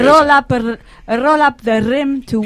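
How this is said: It is said in a Scottish accent.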